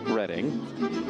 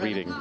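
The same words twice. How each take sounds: First: The first vowel sounds like 'red'. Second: The first vowel sounds like 'reed'. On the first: It names the town. "spelled R E D D I N G" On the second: It is the ordinary word for reading. "Like reading a book"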